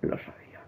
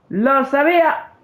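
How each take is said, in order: First: Whispered realisation under the breath; realising in a whisper he was right. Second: Shouting that he knew it all along; exclaim. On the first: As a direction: breathe it almost silently. Quiet realisation before outburst. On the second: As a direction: shout it out, triumphant and annoyed. Exclaiming he was right. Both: Real, not acted.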